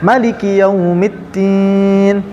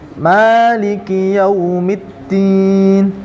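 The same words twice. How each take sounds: First: The vowel after the m is short. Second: The vowel after the m is long. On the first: "yang kita kenal itu mimnya pendek"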